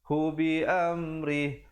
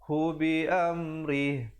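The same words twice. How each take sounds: No difference in how they are said.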